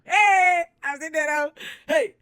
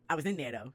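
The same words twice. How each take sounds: First: High, loud celebratory yell; hyped shout. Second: Said in the usual way. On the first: Real, not acted. Celebrating getting in, a high loud yell. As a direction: cheer it like a party.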